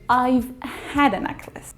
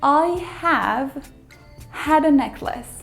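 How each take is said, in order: First: I have is shortened to one syllable, I've. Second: I have is said as two full words.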